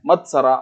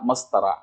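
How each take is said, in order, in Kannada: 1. 't' ಶಬ್ದ 's' ಶಬ್ದಕ್ಕಿಂತ ಮೊದಲು ಬರುತ್ತೆ. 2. 's' ಶಬ್ದ 't' ಶಬ್ದಕ್ಕಿಂತ ಮೊದಲು ಬರುತ್ತೆ.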